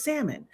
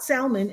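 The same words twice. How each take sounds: First: "salmon" with the L silent, sam-un; correct pronunciation. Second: "salmon" said with the L sounded; wrong pronunciation. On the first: Giving the right way, "salmon" without the L. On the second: Showing the mistake, "salmon" with the L. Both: Shown as a demonstration. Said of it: "Just like the L in salmon".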